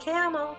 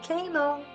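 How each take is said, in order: First: The first vowel is short. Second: The first vowel is long. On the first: The speaker calls it right. "We say camel, but we don't double the M" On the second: The speaker calls it wrong. "We don't say camel"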